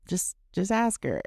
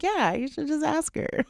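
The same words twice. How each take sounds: First: Said in the usual way. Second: High, sheepish echo of the advice; much higher, sheepish you-should-just-ask-her; sheepish agreement. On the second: Retold or imitated. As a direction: concede it with a squeaky, guilty grin. Sheepishly echoing husband.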